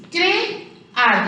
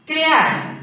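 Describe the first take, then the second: First: "Crear" broken as Cre... ar, with a gap; split into syllables. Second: Said in the usual way. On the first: Shown as a demonstration. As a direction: separate the two vowels of "Crear". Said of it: "se separó". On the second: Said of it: "La secuencia vocálica en este caso se separó".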